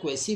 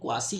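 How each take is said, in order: First: It sounds like kway-see, ending in see. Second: It sounds like kwah-see, ending in see. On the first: "बहुत सारे लोग इसको क्वासी या क्वेसी बोलते हैं" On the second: "बहुत सारे लोग इसको क्वासी या क्वेसी बोलते हैं"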